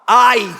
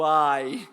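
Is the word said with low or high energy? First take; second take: high energy; low energy. First: It is said with high, excited energy. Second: It is said with low energy.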